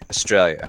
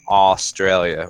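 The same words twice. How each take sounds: First: It is pronounced with an Australian accent. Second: It is pronounced with an American accent. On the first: "whereas you say Australia" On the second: "Americans say Australia"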